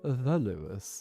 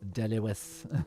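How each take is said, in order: First: It is said in a posh Irish accent. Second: It is said in a broad Dublin accent. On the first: "you got the posher accent, which is the Lewis" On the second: "less posh accent, more dub, like uh, almost almost like just like average dub would be De Lewis"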